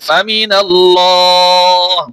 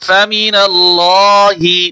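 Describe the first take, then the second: First: The word ends with a bare h consonant. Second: The word ends with a short i vowel. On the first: The reading stops at this word. "ওয়াকফ করলে এই জের হরকত থাকবে না, শুধু হা উচ্চারণ হবে" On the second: The reading continues past this word. "হাজের হি"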